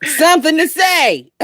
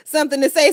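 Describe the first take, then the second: First: Laughing. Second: Said in the usual way. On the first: Real, not acted. Laughing while repeating clip words.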